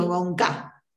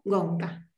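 First: "gonca" como palabra aguda, con el golpe en "ca"; acento en la última. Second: "gonca" como palabra grave, con el golpe en "gon"; acento en la primera. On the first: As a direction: di "gonca" acentuando la sílaba final, "ca". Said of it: "cambié la acentuación, o sea, no digo". ("gonca" con acento agudo al final) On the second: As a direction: di "gonca" cargando "gon" y soltando "ca". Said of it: "o sea, no digo gonca, digo". ("gonca" acentuado en la primera sílaba) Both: Shown as a demonstration.

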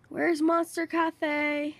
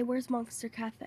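First: Stretched, slow, stress on Monster; puzzled slow-motion asking; slow drawn-out question. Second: Said in the usual way. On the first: Real, not acted. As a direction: drag out the words while searching. Asks twice, second time drawn out.

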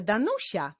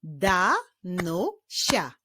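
First: Said in the usual way. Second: "Danusia" as da, nu, sia with pauses; "Danusia" slowly, syllable by syllable; split into syllables. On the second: Shown as a demonstration. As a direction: clap out "Danusia" in three slow beats. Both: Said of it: "Podzielmy na sylaby i wyklaszczmy".

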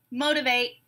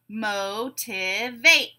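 First: Said in the usual way. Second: "Motivate" very slowly, mo-ti-vate; three drawn-out separate beats on "Motivate"; syllable by syllable. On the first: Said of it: "I'll say a word". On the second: Shown as a demonstration. Teacher breaking a word into syllables, beat by beat. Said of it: "we'll break it into syllables".

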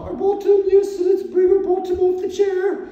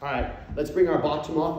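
First: Put-on very high, loud falsetto English accent; hammed-up English lady voice, Mrs Doubtfire style; mock English accent. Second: Said in the usual way. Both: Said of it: "my English accent".

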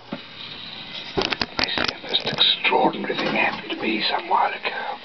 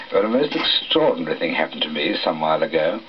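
First: Strained voiceless whisper, drawn out; lost voice. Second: Said in the usual way. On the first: Acted. Storyteller opening his tale finds his voice gone, voiceless whisper. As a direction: rasp it out slowly with no voice. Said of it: "Something's happened to my voice". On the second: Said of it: "Ah, that's better".

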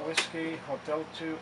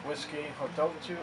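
The two takes are said the same way.

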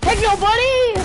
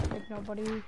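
First: High, loud teasing call; loud taunt. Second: Soft, low teasing; quiet taunt. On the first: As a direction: belt the taunt out gleefully. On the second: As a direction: murmur the taunt under the breath. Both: Real, not acted. Taunt said two ways.

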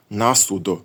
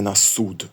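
First: «насудо» stressed on the first syllable НА; «насудо» as one word, first-syllable stress; stress on the preposition. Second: «насуд» stressed on the last syllable СУД; «насуд» with final-syllable stress; stress on the noun. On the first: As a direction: hit НА in «насудо», leave судо unstressed. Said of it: "Тепер дивний наголос". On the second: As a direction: hit СУД in «насуд», на unstressed. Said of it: "а не". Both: Shown as a demonstration.

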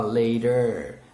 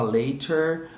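First: American "later" with a tapped t; American pronunciation. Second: British "later" with a crisp t; British pronunciation. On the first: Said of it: "o americano gosta mais de falar". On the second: Teacher shows what the British prefer, British crisp-t "later". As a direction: say "later" the British way, t fully sounded. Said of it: "o britânico gosta mais de falar". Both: Shown as a demonstration.

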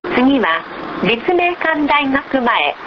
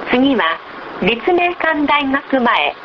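No difference in how they are said.

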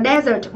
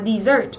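First: "desert" with an "eh" first vowel; pronounced DEH-zert. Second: "dessert" with an "ee" first vowel; pronounced dee-ZERT. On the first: (đọc "desert" thành "đe-dớt") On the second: (đọc "dessert" thành "đi-dớt") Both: Shown as a demonstration. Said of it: "nhìn cái phần phát âm của nó".

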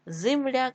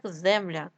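First: Земляк said as Зимляк; short i after З in Земляк; и in first syllable. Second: Said in the usual way. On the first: Shown as a demonstration. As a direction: make Земляк start with зи. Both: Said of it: "Від слова земля".

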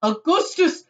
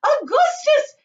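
First: Loud call, moderately high; father crying out. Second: Very high, loud shriek; shrill motherly yell of the name; mother crying out. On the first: Father calling his son, crying out. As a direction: fatherly shout with a rising end. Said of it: "cried Mister Gloop". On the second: Mother calling her son, crying out shrilly. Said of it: "cried Missus Gloop". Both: A narrator's reading.

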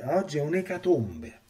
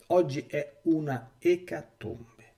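First: Said in the usual way. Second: "Oggi è una ecatombe" drawn out slowly, each word weighed; slow grave emphasis. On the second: Shown as a demonstration. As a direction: let "ecatombe" land heavy and slow. Repeats line for emphasis.

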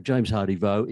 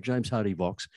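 First: "Vaux" said voh with no final consonant; "James Hardy Vaux" ending in an open voh. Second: "Vaux" said voks with a final ks; "James Hardy Vaux" ending in voks. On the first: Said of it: "Rachel talking about". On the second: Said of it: "me talking about". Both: Shown as a demonstration.

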